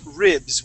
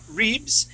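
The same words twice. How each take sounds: First: The vowel is a short English i sound. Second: The vowel is a Spanish-style i sound. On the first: The speaker calls it right. "we're going to say ribs with a short I" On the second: The speaker calls it wrong. "instead of saying ribs and using the Spanish uh, I sound"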